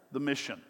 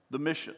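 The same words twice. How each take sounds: The two takes are said the same way.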